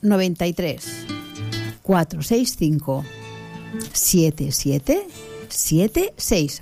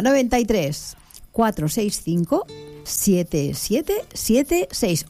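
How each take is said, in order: First: The number is said a little more slowly. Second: The number is said at normal speed.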